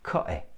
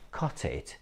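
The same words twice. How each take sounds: First: The t is replaced by a glottal stop. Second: The t is pronounced as a full t.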